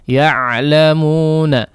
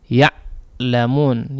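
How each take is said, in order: First: The consonant keeps a slight continuous flow of sound. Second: The consonant is cut off abruptly like a glottal stop. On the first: The speaker calls it right. "tapi tetap mengalirkan suara, ya, namun tidak terlalu banyak" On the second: The speaker calls it wrong. "Jangan juga kemudian mematikan seperti huruf hamzah"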